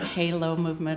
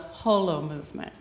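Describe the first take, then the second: First: The first syllable sounds like hay. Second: The first syllable sounds like the word whole. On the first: The speaker calls it wrong. "it's not Halo movement" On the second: The speaker calls it right. "That's whole"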